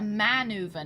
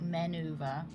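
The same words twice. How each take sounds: First: The first syllable sounds like 'man'. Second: The first syllable sounds like 'men'. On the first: The speaker calls it right. "Only a single man" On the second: The speaker calls it wrong. "not a men"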